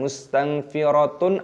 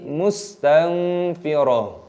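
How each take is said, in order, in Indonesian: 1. Kata ini berakhir dengan bunyi 'tun' penuh. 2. Kata ini berakhir dengan bunyi 'h' lembut. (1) "bukan mustanfiratun" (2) "tapi mustanfirah"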